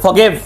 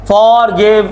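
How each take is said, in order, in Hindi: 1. जोर दूसरे शब्दांश पर है। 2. जोर पहले शब्दांश पर है। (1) "स्ट्रेस गिव पे देना है" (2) "इतना बड़ा फॉर करने की क्या जरूरत है"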